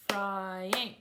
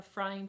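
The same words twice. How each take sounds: First: "frying" clapped out as fry-ing; two distinct beats on "frying"; syllable by syllable. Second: Said in the usual way. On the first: Shown as a demonstration. Teacher clapping syllables in the kitchen, "frying" split fry-ing. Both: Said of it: "ask children to clap syllables".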